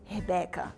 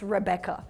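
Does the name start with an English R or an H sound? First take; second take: H sound; English R. First: The first sound is a breathy H-like sound. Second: The first sound is an English R. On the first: This is how a Portuguese speaker says the name. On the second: This is the name as the listener knows it.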